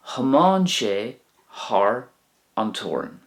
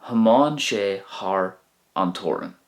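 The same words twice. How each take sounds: First: Slow model. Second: Said in the usual way. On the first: Shown as a demonstration. Teacher modelling the Irish sentence slowly for learners. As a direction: draw out "Thiomáin sé thar" slowly. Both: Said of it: "He drove across the border".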